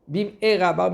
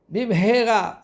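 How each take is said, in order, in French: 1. Le deuxième mot commence directement par une voyelle. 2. Le deuxième mot commence par un son h. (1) "le Aleph, c'est une malédiction" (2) "c'est vite"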